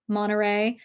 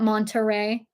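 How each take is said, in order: First: The t sound is dropped. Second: The t sound is clearly pronounced. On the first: The speaker calls it right. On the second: The speaker calls it wrong.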